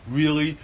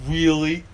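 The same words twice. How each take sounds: The two takes are said the same way.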